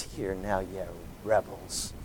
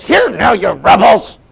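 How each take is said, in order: First: Low, soft, calm rebuke; calm quiet. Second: Much higher, much louder angry boom; booming anger. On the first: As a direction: say it quietly, almost gently. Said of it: "I don't believe he said it in a very calm voice". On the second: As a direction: thunder it at the crowd. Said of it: "his voice boomed with the emotion". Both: Shown as a demonstration.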